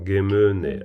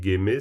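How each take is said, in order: First: The syllable is slightly lengthened. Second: The syllable is kept short, not lengthened. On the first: The speaker calls it right. "on l'allonge légèrement" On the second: The speaker calls it wrong. "t'as dit Geme"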